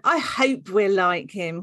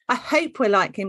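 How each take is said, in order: First: It is said in a creepy way. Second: It is said in a plain, friendly way. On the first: The speaker calls it wrong. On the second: The speaker calls it right.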